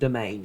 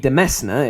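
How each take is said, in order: First: It sounds like 'domain'. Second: It sounds like 'demesna'. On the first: "I do pronounce it domain now" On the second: "a more literal pronunciation"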